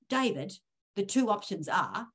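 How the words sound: The tone sounds condescending and talking down. The listener is being talked down to. The speaker calls it wrong. "that just sounds completely condescending"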